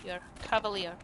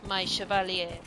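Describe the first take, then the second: First: Said in the usual way. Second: "Chevalier" said the French way, shuh-val-YAY; a playful Orlesian French lilt on "Chevalier"; mock French accent. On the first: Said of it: "you are now dubbed Sir Cavalier". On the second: Shown as a demonstration. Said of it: "I love the Orlesian accent".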